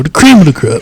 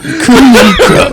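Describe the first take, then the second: First: Said in the usual way. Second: Laughing through the promo line; hammy promo catchphrase, half laughing; wrestling promo. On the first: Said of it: "I don't even wanna say it no more". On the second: Pretend. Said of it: "let me do my promo".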